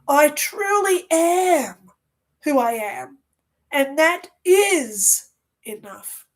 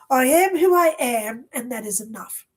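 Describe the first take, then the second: First: It is said with strong conviction. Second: It is said plainly, without conviction.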